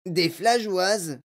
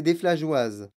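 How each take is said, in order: First: "flageoises" drawn out slow and higher, as a query; Mike T V questioning. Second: Said in the usual way. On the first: A narrator's reading. Mike interrupts Wonka, querying "flageoises" slowly, pitched up. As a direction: query the word "flageoises", stretching it out. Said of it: "demanda Mike T V".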